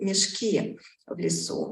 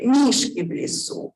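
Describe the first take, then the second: First: The first word is stressed on its last syllable. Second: The first word is stressed on its first syllable. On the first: Bags in the forest. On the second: Bears in the forest.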